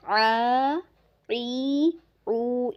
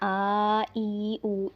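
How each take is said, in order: First: Each syllable starts with a deep throat sound. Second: Each syllable starts with a plain glottal catch. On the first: The speaker calls it right. "इसको आइन की ही आवाज़ देनी है" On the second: The speaker calls it wrong. "हमज़ा नहीं बना देना आ ई ऊ, इस तरह नहीं करना"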